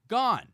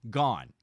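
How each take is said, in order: First: Gone yelled high and loud; a loud, high yell of Gone at the lost glove; exasperated shout. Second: Said in the usual way. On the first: Real, not acted. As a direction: shout Gone in real disbelief. Glove blown into the lake.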